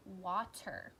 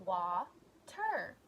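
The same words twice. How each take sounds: First: Said in the usual way. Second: "Water" as two separate beats, wa, ter; split into syllables. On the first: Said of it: "What about the word water". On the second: Shown as a demonstration. Teacher counting syllables for pupils, "Water" broken in two. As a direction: break "Water" with a clear pause after wa. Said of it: "going to say the syllables in a word".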